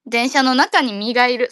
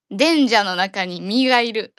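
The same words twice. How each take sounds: First: Said in the usual way. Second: 電車の中に身がいる said slowly, 電 stressed; slow deliberate repeat. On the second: Shown as a demonstration. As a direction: spell it out slowly, hitting 電. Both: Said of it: "これは。".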